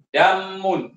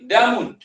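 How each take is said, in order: First: The m sound is held long, doubled. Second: The m sound is short, not doubled. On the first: The speaker calls it wrong. "tidak dibaca dengan damun" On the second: The speaker calls it right. "Dal mim. Okey, damun"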